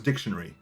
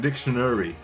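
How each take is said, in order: First: The word is said at a fast pace. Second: The word is said at a slow pace.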